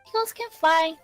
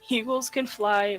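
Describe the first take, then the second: First: It is read in a cute put-on voice. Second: It is read in a normal speaking voice.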